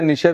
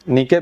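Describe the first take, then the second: First: The word ends with a ch sound. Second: The word ends with a k sound. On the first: "नीचे भी बोलते हैं" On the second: "नीके भी बोलते हैं"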